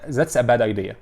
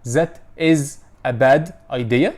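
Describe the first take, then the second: First: The words are run together smoothly with linking. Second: Each word is said separately without linking. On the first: The speaker calls it right. "بتعلم ازاي اقولها" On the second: The speaker calls it wrong. "مش عارف اعمل لها لينكينج"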